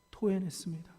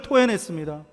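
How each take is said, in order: First: Softer, falling repeat of 토해냈습니다; a hushed echo of the word; quiet echo. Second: Said in the usual way. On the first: Acted. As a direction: let 토해냈습니다 sink away, much softer.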